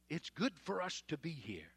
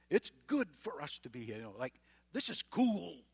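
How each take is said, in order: First: Said in the usual way. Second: Mock clueless Peter. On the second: Preacher mocking Peter's silly remark on the mountain, loud and dopey. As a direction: play Peter as a gushing airhead. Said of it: "hello, what kind of a statement is that".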